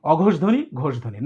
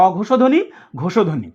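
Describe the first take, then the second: First: ঘোষ said as closed ghosh, no vowel after ষ; wrong pronunciation. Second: ঘোষ said as open ghosho, with o after ষ; correct pronunciation. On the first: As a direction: demo the common mistake: ঘোষ clipped to one syllable before ধ্বনি. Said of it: "অনেকেই আমি দেখেছি ভুল উচ্চারণ করে". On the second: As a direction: model it right: ঘোষ as two syllables, gho-sho ধ্বনি. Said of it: "এটা মুক্তাক্ষর হিসেবে ধরতে হবে". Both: Shown as a demonstration.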